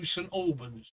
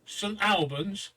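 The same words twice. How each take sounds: First: ALBANS with first syllable like "all", falling; second pronunciation option. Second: ALBANS drawn out, first vowel as in "pal"; first pronunciation option. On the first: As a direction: say ALBANS as "AWL-bunz", a little softer. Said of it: "or two". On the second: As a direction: say ALBANS slowly with a short "Al", questioning lift at the end. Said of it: "We still haven't decided what". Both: Shown as a demonstration.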